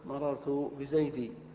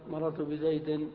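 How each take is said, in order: First: The last word ends with a long i vowel. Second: The last word ends with a nasal n sound. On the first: "فيقف مررت بزيدي" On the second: "وفي الجر"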